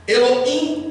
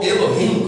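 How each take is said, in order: First: "Elohim" said with a silent H, e-lo-IM; "Elohim" with the H dropped; Elohim without H. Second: "Elohim" with an audible H, e-lo-HIM; "Elohim" as Elo-him, H sounded. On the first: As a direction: say "Elohim" as Elo-im, no breath before the last syllable. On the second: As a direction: say "Elohim" with a breathed H before the final syllable. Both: Shown as a demonstration. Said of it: "como você preferir".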